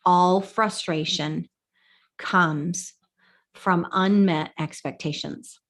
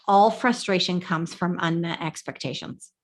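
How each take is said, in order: First: "All frustration comes from unmet expectations" repeated slowly, word by word; slow down and drive the point home on "unmet"; slow emphatic repeat. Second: Said in the usual way. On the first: Shown as a demonstration.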